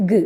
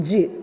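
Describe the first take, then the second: First: G said as a short hard "guh"; hard G sound. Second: J said as a short "juh"; soft J sound. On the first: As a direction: say G as "guh", not "juh". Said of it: "What is the pronunciation?". (G എന്നത് "ഗ്" എന്ന്) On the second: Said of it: "It's not J". (J എന്നത് "ജ്" എന്ന്) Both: Shown as a demonstration.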